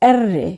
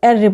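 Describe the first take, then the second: First: The r is said with a vibrating trill. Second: The r is said plainly without vibration. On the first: The speaker calls it right. "Vibration হবে আর রে" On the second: The speaker calls it wrong. "আর রে বলবো না"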